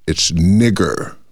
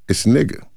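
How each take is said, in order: First: The final er sound is exaggerated and hard. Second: The ending is soft, without an exaggerated er. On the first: The word is used as an insult. "When I hear it weaponized, the ER must be exaggerated" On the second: The word is used casually. "But when it's used colloquially"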